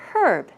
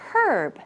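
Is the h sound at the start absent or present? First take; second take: present; present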